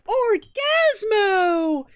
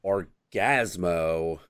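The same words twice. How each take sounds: First: Very high, loud, drawn-out hero cry; hammed-up triumphant shout, slowly stretched; mock heroic announcement. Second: Low, slow mock entrance; half-hearted imitation of a heroic cry; deflated hero announcement. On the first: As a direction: belt out a superhero's entrance. First take of hero's entrance. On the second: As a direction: let the superhero's name sag, drawn out. Deflated second take of entrance.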